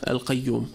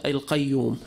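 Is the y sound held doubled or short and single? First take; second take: single; single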